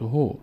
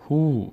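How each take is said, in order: First: هو as short "ho"; short vowel. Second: هو as long "huu"; long vowel. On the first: Teacher says he on its own, short "ho". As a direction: say هو with a brief o. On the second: Teacher adds vav to he, long "huu". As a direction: stretch the oo in هو. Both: Shown as a demonstration.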